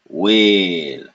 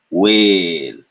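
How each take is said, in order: No difference in how they are said.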